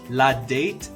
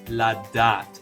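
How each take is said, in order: First: It is said with an English-style vowel. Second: It is said with a French-style vowel. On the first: The speaker calls it wrong. "Resist the urge to pronounce it like English. La date is wrong" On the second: The speaker calls it right. "In French, the letter A makes the sound A"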